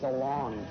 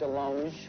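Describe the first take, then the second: First: The name is said with an English-style pronunciation. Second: The name is said with a French-style pronunciation. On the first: The speaker calls it wrong. "you're pronouncing it wrong" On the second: The speaker calls it right. "it should be DeLonge, because I went to France"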